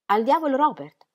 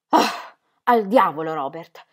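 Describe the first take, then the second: First: Higher, puzzled echo of al diavolo Robert; stunned repetition. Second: Louder, slow, forceful curse; violent exclamation. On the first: Ingeborg repeating Ingram's curse, utterly stunned. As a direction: echo his curse in bewilderment. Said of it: "ripeté assolutamente attonita". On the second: Ingram cursing Robert in front of Ingeborg, violent. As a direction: spit it out with violence. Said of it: "esclamò lui con violenza". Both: Acted.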